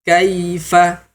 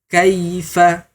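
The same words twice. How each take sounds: No difference in how they are said.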